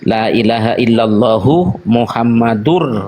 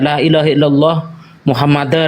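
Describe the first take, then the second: First: The name ends with an 'ur' sound. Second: The name ends with an 'ar' sound. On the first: The speaker calls it right. "Jadi biar pas dengan nahunya" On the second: The speaker calls it wrong. "kadang-kadang membaca la ilaha illallah Muhammadar ... nggak elok juga"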